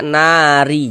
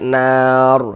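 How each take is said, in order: First: The word ends with an added vowel after r. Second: The word ends on a silent final r. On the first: The speaker calls it wrong. "Jangan dibaca nari" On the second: The speaker calls it right. "kita baca nar"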